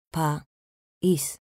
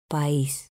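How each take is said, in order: First: "País" split as Pa, ís, pause between; syllable by syllable. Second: Said in the usual way. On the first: Shown as a demonstration. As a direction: say "País" in two separate pieces, Pa... ís. ("País" separado en sílabas: pa, ís) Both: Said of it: "Separación de sílabas".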